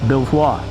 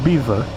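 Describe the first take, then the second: First: It is said the French way, like 'Bel-vwar'. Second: It is said like the English word 'beaver'. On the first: This is how the name is said elsewhere in the world. "anywhere else in the world, that's actually pronounced Belvoir" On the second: This is how the name is said in England. "so it makes even less sense to pronounce it Beaver"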